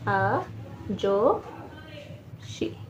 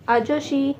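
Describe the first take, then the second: First: आजोशी very slow and soft, a, jo, shi; long pauses between the syllables of आजोशी; slow dictation. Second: Said in the usual way. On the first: Shown as a demonstration. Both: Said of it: "तो लिखते हैं हम लोग".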